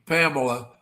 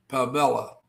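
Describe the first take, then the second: First: Pamela stressed on the first syllable; Pamela with a light, unstressed middle syllable; own pronunciation. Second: Pamela with a clear "mell" in the middle; Pamela in the other way, with a full middle vowel; alternative pronunciation. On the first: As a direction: say Pamela as PAM-uh-luh. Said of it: "I pronounce". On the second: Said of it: "but I've heard it pronounced". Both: Shown as a demonstration.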